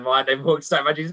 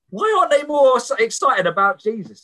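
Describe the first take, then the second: First: A quick bemused repeat; fast puzzled echo. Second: High, loud, eager outburst; a raised, fervent question; imitating excited convert. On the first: Retold or imitated. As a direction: rattle his words back quickly, baffled. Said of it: "What, what do you mean, man?". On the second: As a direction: burst out like a new believer who can't contain it. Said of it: "he's so excited for Jesus".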